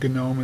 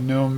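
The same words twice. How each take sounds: First: The word starts with a hard g sound. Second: The word starts with an n sound, silent g. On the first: "you can call it GNOME as well" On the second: "I call it GNOME because my wife loves garden gnomes"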